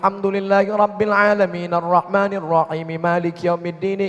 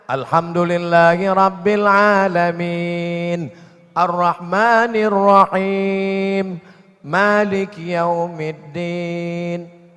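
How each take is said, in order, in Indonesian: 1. Frasanya disambung tanpa berhenti untuk bernapas. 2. Frasanya dipisah dengan wakaf untuk bernapas. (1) "Yang wasal itu nyambung" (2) "Itu namanya wakaf"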